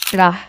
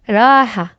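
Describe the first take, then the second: First: The vowel is short and quick. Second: The vowel is long and stretched. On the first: "Without alif, it will just be rah" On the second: "But now it's raha"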